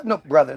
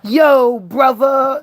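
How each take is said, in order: First: "brother" with a clear final r, plain voice. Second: Mock slang greeting with the r dropped, brotha. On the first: Shown as a demonstration. Correcting his own mock greeting, plain "brother" with the r. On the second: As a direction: toss off "brother" as "brotha", no r, a touch higher. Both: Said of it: "They didn't say brother yet".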